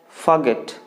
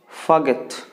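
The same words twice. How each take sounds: Both takes have the same delivery.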